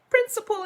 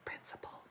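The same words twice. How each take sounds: First: "Principal" called out loud and high; big bright call of "Principal"; loud announcement. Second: Whispered "Principal."; soft secretive "Principal". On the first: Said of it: "it says". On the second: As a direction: breathe the word "Principal" out. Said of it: "Principal, it says". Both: Shown as a demonstration.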